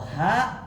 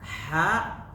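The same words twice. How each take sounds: First: The h sound is breathed from the chest. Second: The h sound is pushed from the throat. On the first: "keluar dari dada" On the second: "sebenarnya keluar dari tenggorokan"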